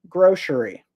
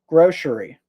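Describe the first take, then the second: No difference in how they are said.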